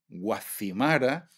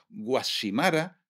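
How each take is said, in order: First: The consonant before the i is a th sound. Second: The consonant before the i is an s sound. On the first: This is how a mainland speaker says it. The speaker calls it wrong. "tenéis que decir" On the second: This is how Canary Islanders say it. The speaker calls it right. "decís guasimara"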